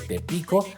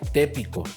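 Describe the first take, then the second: First: The stress falls on the second syllable. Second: The stress falls on the first syllable. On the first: "el acento natural del sirrema" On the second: "a la vocal previa"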